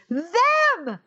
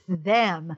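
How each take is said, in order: First: It is exclaimed loudly and forcefully. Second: It is said flatly, without emphasis.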